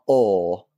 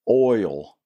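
First: The word is said in a rural Southern accent. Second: The word is carefully enunciated in a standard accent. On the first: The speaker calls it wrong. "not oil" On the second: The speaker calls it right. "she enunciates"

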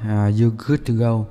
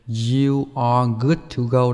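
First: You are is contracted to one syllable. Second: You are is said as two full words.

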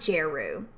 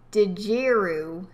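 First: The name begins without any D sound. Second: The name begins with a pronounced D sound.

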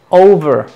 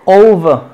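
First: It is said with an American accent. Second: It is said with a British accent. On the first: "pero los americanos" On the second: "dicen los británicos"

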